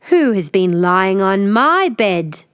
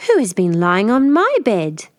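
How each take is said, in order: First: Slow, loud bear growl; growling father bear. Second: A lighter growl of mother bear. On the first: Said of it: "Father Bear growled". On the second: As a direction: growl it gentler than father. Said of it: "Mother Bear growled". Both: Acted.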